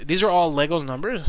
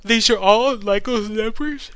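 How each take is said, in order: First: Said in the usual way. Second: Slow question through a real yawn. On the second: Real, not acted. Tired host asks about the numbers mid-yawn. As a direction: say These are all Lego's numbers? while yawning. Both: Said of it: "I'm yawning".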